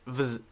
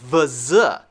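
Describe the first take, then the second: First: The v runs straight into the z quickly. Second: The v and z are separated by a break. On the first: The speaker calls it right. "It's much faster. It's vz" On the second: The speaker calls it wrong. "not vz"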